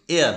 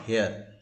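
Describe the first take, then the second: First: The word begins with a vowel, no h sound. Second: The word begins with an audible h sound. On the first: The speaker calls it right. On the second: The speaker calls it wrong. "not hair"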